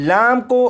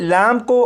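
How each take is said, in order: Both takes have the same delivery.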